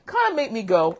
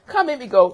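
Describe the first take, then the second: First: Said in the usual way. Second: Kinda made me go pushed louder and higher; for emphasis. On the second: Shown as a demonstration. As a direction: lean hard on kinda made me go, building to the outburst. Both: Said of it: "this I'm doing for emphasis sake".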